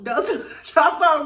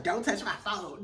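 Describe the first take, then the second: First: Laughing through it, louder; cracking up while quoting the warning; laughing mock warning. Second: Said in the usual way. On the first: Retelling Meredith's line to viewers, laughing. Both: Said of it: "I was like".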